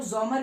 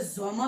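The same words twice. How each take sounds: First: ज़ोमर with the final R sounded; ज़ोमर closing on an audible R; alternative R ending. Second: ज़ोमा ending on an open "a"; German ज़ोमा with Z opening and R dropped; silent R ending. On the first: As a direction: say ज़ोमर as "ZOH-mer", Z at the start. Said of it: "ज़ोमर भी बोलते हैं". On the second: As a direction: say ज़ोमा as "ZOH-ma", no R. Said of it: "ज़ोमा भी बोल लो". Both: Shown as a demonstration.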